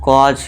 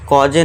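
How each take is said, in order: First: The word ends cleanly on the consonant. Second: The word ends with an added vowel sound. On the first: The speaker calls it right. "कॉज इसे हम पढ़ेंगे" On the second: The speaker calls it wrong. "कॉजे नहीं"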